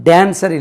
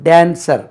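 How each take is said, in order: No difference in how they are said.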